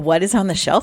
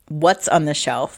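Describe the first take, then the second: First: The words 'what is' are said in full. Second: The words 'what is' are contracted together. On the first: It is a formal way of saying it. "That's Jason's like very formal diction" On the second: It is a more natural way of saying it. "makes a little more sense"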